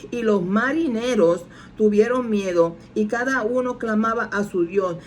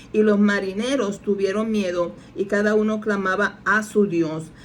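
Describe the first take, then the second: The two takes are said the same way.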